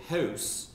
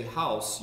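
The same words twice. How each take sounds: First: "house" drawn out with a raised Richmond vowel, like "heh-oose"; Richmond pronunciation. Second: Said in the usual way. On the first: Shown as a demonstration. Newcomer shows how Richmond says it, "house" drawn out as "heh-oose". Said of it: "I've learned that in Richmond". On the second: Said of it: "in Richmond, you don't say house".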